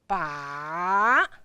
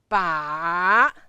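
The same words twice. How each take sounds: First: The pitch goes down and then up. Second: The same.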